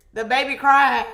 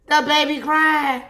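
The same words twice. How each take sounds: First: Put-on loud, wailing the baby crying; loud mock wail. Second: Put-on higher, louder The baby crying; loud mock wail. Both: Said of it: "I was like".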